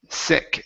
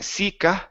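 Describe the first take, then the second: First: The word ends cleanly with no added vowel. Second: An extra 'uh' vowel is added after the word. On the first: The speaker calls it right. "Short I and take off the uh sound at the end" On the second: The speaker calls it wrong. "Instead of saying sika"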